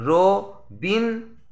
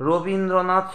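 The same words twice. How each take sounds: First: Slow Rabindranath in four beats: র, বীন, দ্র, নাথ; syllable by syllable. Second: Said in the usual way. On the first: Shown as a demonstration. Teacher demonstrating four stresses, Rabindranath slowly broken up. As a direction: split Rabindranath with clear gaps between syllables. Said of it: "চারবার ঝোঁক পড়বে". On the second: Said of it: "এই শব্দটি উচ্চারণ করার সময়".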